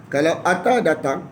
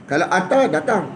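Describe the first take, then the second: Both takes have the same delivery.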